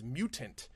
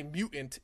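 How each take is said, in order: First: "mutant" with a clearly enunciated middle T. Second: "mutant" with a glottal stop in place of the T; dropped T. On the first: Speaker correcting own voice-over, "mutant" with the T enunciated. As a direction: sound out the T in "mutant". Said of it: "I need to enunciate that T". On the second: Speaker mocking own accent on voice-over, "mutant" with a glottal stop for the T. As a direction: swallow the middle T of "mutant". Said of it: "I can't say mutant". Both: Shown as a demonstration.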